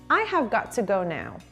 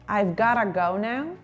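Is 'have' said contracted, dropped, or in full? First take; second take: full; contracted. First: Every word is said in full, unreduced. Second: 'Have' is contracted and 'got to' becomes gotta.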